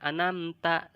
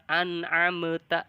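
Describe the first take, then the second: First: The middle consonant is left out. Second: The middle consonant gets an echoing bounce. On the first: "dibacanya anamta, itu salah" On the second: "ada qalqalahnya. Itu lebih salah"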